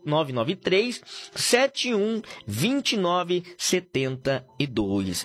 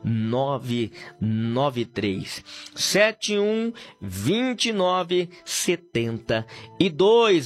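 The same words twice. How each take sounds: First: The number is said quickly. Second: The number is said slowly and drawn out.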